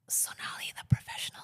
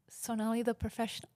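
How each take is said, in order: First: It is whispered close to the microphone. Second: It is spoken in a normal voice.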